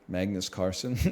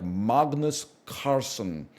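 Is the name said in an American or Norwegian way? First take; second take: American; Norwegian. First: The name is said with an Americanized, soft L. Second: The name is said in a Norwegian-like way. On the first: "it's a soft L. ... I Americanized it a little bit" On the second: "In the original Norwegian, it's more like"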